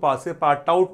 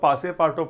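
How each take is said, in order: First: The name ends in a spoken 'out' sound. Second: The name ends in 'too' with silent t. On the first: The speaker calls it wrong. "इसको पासे पार्ट आउट नहीं पढ़ना है" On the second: The speaker calls it right. "इसको पासे पार्टो पढ़ना है"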